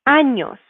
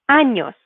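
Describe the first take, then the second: No difference in how they are said.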